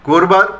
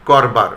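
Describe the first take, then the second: First: করবার said korbar, first vowel o, higher with a rise; o-sound version. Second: করবার said kɔrba, open first vowel, lower with a fall; ɔ-sound version. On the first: (করবার ও-কারান্ত উচ্চারণে) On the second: (করবার অ-কারান্ত উচ্চারণে) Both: Shown as a demonstration. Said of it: "দুরকম উচ্চারণ পেলাম".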